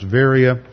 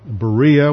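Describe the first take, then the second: First: The name is said the local Greek way. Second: The name is said the usual English way. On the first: This is how the local people say it. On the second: This is how English speakers say it.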